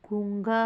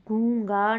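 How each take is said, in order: First: गूंगा as "goong-gaa"; corrected nasal form. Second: गूंगा as "goo-gaa", no ng; wrong form, no nasal. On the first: Teacher giving students the correction, गूंगा with nasal. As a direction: sound the ng in गूंगा. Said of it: "गूंगा होगा". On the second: Teacher showing students the error, गूंगा without nasal. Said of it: "गूंगा नहीं". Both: Shown as a demonstration.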